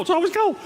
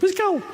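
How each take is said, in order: First: High whiny complaint. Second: High upset voice. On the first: Guests griping about the cold house, high whine. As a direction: jump way up into a whine. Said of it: "my voice goes up". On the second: Pastor showing his own upset voice, high squeak. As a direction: voice jumps way up when upset. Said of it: "When I get upset, my voice goes up". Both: Retold or imitated.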